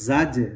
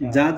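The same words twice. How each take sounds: First: The first consonant is a soft z sound. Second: The first consonant is a hard j sound. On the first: The speaker calls it right. "এটা হবে জাজ" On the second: The speaker calls it wrong. "জাজ না"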